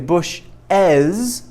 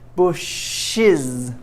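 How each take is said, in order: First: The ending is pronounced with an 'az' vowel. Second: The ending is pronounced with an 'iz' vowel. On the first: "I can say bush as, which is fine. So it's as" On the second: "or it can be bushes, like I Z"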